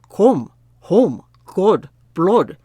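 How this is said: It is said in a Scottish accent.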